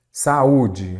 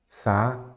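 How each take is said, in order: First: Said in the usual way. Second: Sa-u-de broken into three separate syllables sa, u, de; teacher spelling out Sa-u-de one syllable at a time so students hear the hiatus; syllables split. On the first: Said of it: "Sa-u-de". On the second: Shown as a demonstration. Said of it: "aqui é um hiato".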